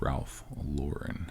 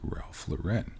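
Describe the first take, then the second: First: The name is said with an English pronunciation. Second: The name is said with a French pronunciation. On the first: The speaker calls it right. "It's Ralph Lauren" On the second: The speaker calls it wrong. "not Ralph Lauren ... the correct French pronunciation"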